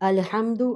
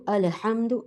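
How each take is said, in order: Both takes have the same delivery.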